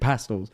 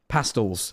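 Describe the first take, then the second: First: It is said in the speaker's ordinary voice. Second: It is said in a put-on character voice.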